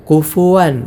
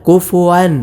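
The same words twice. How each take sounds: The two takes are said the same way.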